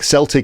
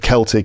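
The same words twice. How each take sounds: First: The word begins with an S sound. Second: The word begins with a K sound. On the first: It names the football club. "Celtic is a football club" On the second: It is the adjective for the culture. "Celtic is the adjective"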